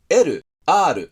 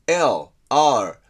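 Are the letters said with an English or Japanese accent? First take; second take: Japanese; English. First: The letters are said with Japanese sounds. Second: The letters are said with English-like sounds. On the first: The speaker calls it wrong. "日本語的に言うんじゃなくて" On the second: The speaker calls it right. "みたいに音をちゃんと真似しようとしてる"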